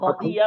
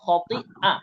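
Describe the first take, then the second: First: A y sound comes before the final vowel. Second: A glottal stop comes before the final vowel. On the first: The speaker calls it wrong. "খতি ইয়া বললে ইয়া হয়ে যাবে" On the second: The speaker calls it right. "এখানে হামজাটা উচ্চারণ করতে হবে"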